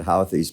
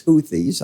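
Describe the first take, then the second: First: "Houthis" said the Midwest way, HOW-thiz with an ow sound; "Houthis" as HOW-thiz, Midwest twang on the first vowel. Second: "Houthis" said correctly as HOO-thiz, long oo sound; "Houthis" as HOO-thiz, with care. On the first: Explaining his own accent to viewers, "Houthis" as HOW-thiz. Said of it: "My Midwest accent gets it". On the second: Correcting himself for viewers, "Houthis" as HOO-thiz. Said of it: "but it's Houthis". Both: Shown as a demonstration.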